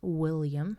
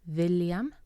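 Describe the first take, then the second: First: The word begins with a W sound. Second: The word begins with a V sound. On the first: The speaker calls it wrong. "not William as in English" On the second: The speaker calls it right. "William has a V sound"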